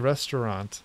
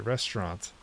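First: The middle syllable is pronounced fully. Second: The middle syllable is dropped almost completely. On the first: "Some people say restaurant" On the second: "some people just say restaurant, completely like breaking the second syllable"

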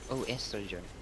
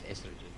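First: The word begins with an added 'oh' sound. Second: The word begins directly with an 'es' sound. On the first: "You're supposed to put the O after the estrogen" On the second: "the way they pronounce it is estrogen"

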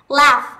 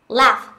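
First: The vowel is a long open 'ah' sound. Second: The vowel is a short flat 'a' sound.

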